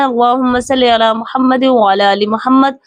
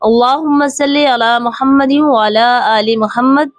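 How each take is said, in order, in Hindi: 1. यह तेज़ गति से पढ़ी जाती है। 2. यह धीमी और ध्यान से पढ़ी जाती है।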